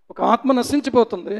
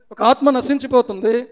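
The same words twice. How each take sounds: The two takes are said the same way.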